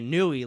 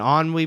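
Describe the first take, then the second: First: The word is said in an anglicized, spelled-out way. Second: The word is said in a French-like way. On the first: The speaker calls it wrong. "I would have sounded really stupid" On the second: The speaker calls it right. "you mean ennui, bro?"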